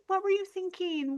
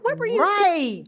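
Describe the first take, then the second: First: It is said in a gentle, caring tone. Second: It is said in a scolding, accusing tone.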